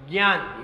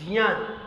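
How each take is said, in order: First: ज्ञान said with a hard g, "gyaan"; common mispronunciation. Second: ज्ञान said as "jnyaan", starting on j; corrected pronunciation. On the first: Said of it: "नहीं, नहीं, ये ज्ञान की spelling नहीं है". (ज्ञान को "ग्यान" बोलते हुए) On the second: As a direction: say ज्ञान with j and a nasal y, not g. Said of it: "ये ज्ञान की स्पेलिंग है". (ज्ञान को "ज्यान" जैसा, ज से बोलते हुए) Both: Shown as a demonstration.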